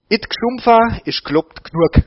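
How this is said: It is spoken in a broad Swabian dialect.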